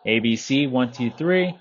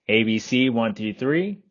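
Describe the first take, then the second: First: The voice is heard over ambient background noise. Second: The voice is heard without background noise. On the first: "with ambient noise. Same volume and everything" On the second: "here is the microphone test with the Jabra Evolve seventy-five E microphone"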